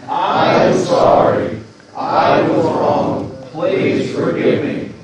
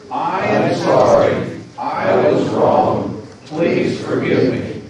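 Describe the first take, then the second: First: Louder, slower, every word pushed out; more enthusiasm. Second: Said in the usual way. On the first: Shown as a demonstration. Pastor urging the congregation to repeat it with more enthusiasm, loud and slow. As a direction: say it like you really mean it, with gusto. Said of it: "with a little more enthusiasm". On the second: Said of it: "say those words together".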